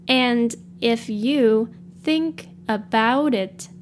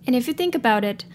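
First: It is said at a slower pace. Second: It is said at a normal, quicker pace.

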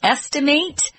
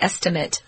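First: The last syllable has a long A vowel. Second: The last syllable has a short I vowel. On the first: It is used as a verb. "with a long A sound for the verb" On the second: It is used as a noun. "with sort of a short I sound, for the noun"

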